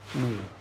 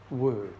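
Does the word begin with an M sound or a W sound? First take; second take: M; W. First: The word begins with an M sound. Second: The word begins with a W sound. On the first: This is the later Japanese reading of the word. "arrived in Japan, transformed into moo" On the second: This is the original Chinese reading of the word. "which is how it would have sounded in Chinese"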